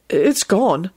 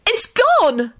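First: Said in the usual way. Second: High, thrilled exclamation; excited relief. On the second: A narrator's reading. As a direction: cry it out with great relief. Rosie relieved the curse is gone.

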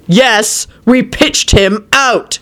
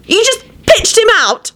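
First: Slow, emphatic retort, pitched up; defiant shout. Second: Very high, outraged cry; accusing scream. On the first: Quentin answering Elizabeth's accusation, shouting back. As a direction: throw it back word by word. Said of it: "he shouted". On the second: Elizabeth accusing Quentin over Lupin, screaming. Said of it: "Elizabeth screamed accusingly at Quentin". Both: A narrator's reading.

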